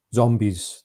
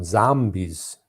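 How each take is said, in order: First: Said in the usual way. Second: Zambies with a flat open a, ZAM-bies. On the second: Retold or imitated. Host retelling the film's odd accent, zambies. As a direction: say zambies, not zombies, with an open a. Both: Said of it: "they call 'em zambies".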